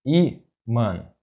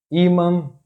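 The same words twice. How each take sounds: First: Ímã split in two, í - mã; syllable by syllable. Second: Ímã as one word, high stress on Í; stress on accented syllable. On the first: Teacher breaking down an example word, ímã in separate syllables. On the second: Teacher giving a two-accent example, ímã stressed on Í. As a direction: say ímã joined up, lifting the first syllable. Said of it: "the stressed syllable is that one". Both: Shown as a demonstration.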